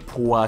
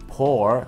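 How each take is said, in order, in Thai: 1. สระนี้คือสระอัวของไทยครับ 2. สระนี้เป็นการผสมระหว่างสระโอกับสระเอครับ (1) "ไม่ใช่พัวสระอัวนะฮะ" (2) "เสียงมันจะคล้ายๆสระโอกับสระเอมาผสมกันนะครับ"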